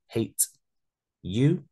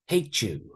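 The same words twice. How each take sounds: First: The t and y sounds stay separate. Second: The t and y blend into ch.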